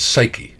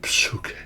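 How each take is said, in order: First: It is said the modern English way. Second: It is said the ancient Greek way. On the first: This is how it is said today. "today we mispronounce it as psyche" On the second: This is how it was said in ancient times. "Back in the day, it appears to have been psyche"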